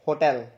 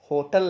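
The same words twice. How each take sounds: First: होटल as "ho-TEL", open e in the second syllable; correct pronunciation. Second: होटल as "HO-tl", weak second vowel; wrong pronunciation. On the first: Teacher models the right form, correct pronunciation. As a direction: give होटल a full "tel" ending, falling. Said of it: "उसको क्या बोलते हैं". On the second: Teacher rejects the usual form, wrong pronunciation. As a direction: stress the first syllable of होटल, swallow the second. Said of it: "होटल नहीं". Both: Shown as a demonstration.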